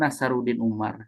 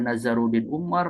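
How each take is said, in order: First: The name is said with an s sound. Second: The name is said with a z sound. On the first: The speaker calls it right. "Yang betul itu" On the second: The speaker calls it wrong. "beberapa orang menyebutkan"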